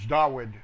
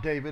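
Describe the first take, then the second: First: The name is said with a W sound. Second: The name is said with a V sound. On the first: The speaker calls it right. "it's Dawud with a W" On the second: The speaker calls it wrong. "It's not David"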